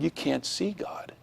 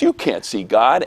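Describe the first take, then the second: First: Put-on soft, slow, higher kid's correction; quiet objection. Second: Firm retold contradiction at full voice; argumentative classmate. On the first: Classmate objects to the drawing, soft and slow. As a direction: imitate a child hushedly contradicting. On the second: Classmate starts a big argument, firmly contradicting. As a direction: imitate a kid digging in.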